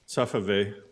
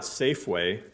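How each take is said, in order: First: It is said with a foreign-accented pronunciation. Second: It is said with a standard pronunciation. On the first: "the funniest pronunciations of certain things" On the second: "It's not Safeway"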